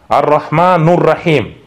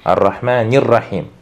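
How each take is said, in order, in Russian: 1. Гласный перед «Rahim» — звук u. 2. Гласный перед «Rahim» — звук i.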